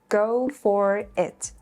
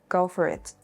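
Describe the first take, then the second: First: The words are said separately. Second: The words run together smoothly.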